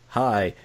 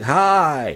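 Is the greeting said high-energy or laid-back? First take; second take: laid-back; high-energy. First: The greeting is said in a calm, low-energy way. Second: The greeting is said in a lively, high-energy way. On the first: "I'm just laid back, and I'm like" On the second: "you gotta say it like this"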